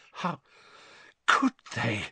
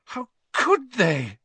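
First: Fighting back tears, words stuck in the throat; choked. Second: Higher, slow, drawn-out wail of disbelief; anguished cry. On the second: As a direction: let the horror break out in the voice. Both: A narrator's reading. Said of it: "she choked".

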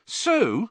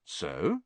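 First: SO pitched high, impatient. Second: Soft, low questioning SO; SO rising gently as a question; puzzled prompt. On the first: Fred answers the slow listener, impatient SO. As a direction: throw SO back impatiently. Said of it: "said Fred impatiently". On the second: Harry prompts Fred for the rest, puzzled SO. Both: A narrator's reading.

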